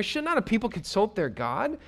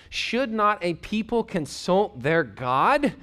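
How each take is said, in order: First: Higher, pressing, with a rise on not; emphatic rhetorical question. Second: Slow scripture reading. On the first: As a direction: push the question at the listeners. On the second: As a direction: read each word slowly and deliberately. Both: Shown as a demonstration. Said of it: "Finally, some clear thinking here".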